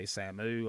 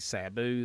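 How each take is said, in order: First: The second syllable starts with an m sound. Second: The second syllable starts with a b sound. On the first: The speaker calls it wrong. "They say Samu" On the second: The speaker calls it right. "They can't say Sabu"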